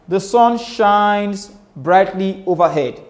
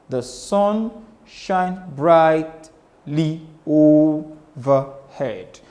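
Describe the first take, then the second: First: It is read casually with even, relaxed stress. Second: It is read with strong alternating beat stresses. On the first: "That was said casually" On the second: "if you listen carefully, we say"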